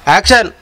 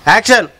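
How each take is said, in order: No difference in how they are said.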